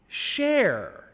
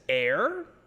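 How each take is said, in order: First: The name begins with an sh sound. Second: The name begins directly with a vowel. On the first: "for the Portuguese Spanish, it also could be translated as share" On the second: "It could be said as air"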